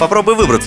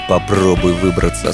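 First: The phrase sounds light and playful. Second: The phrase sounds dark and threatening. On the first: It is a fun challenge game. "это одно" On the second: It sounds like a threat to the child. "совсем другое же получается"

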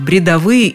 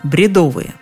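First: The stress is on the third syllable. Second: The stress is on the second syllable. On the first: "я так всегда говорю" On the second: "сама я произносила это слово по-другому"

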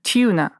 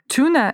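First: The word is said softer, in a British accent. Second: The word is said in an American accent. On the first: "Британцы скажут несколько мягче" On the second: "это американское произношение"

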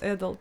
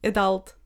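First: It is said with a British accent. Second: It is said with an American accent.

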